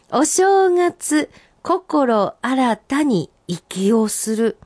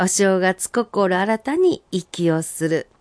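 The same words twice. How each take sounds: First: Senryu recital. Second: Said in the usual way. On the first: Acted. First reading, recited high and slow.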